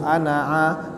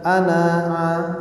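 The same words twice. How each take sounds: First: The final vowel is short. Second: The final vowel is drawn out long. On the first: The speaker calls it right. "langsung ana'a" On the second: The speaker calls it wrong. "bukan ana'a"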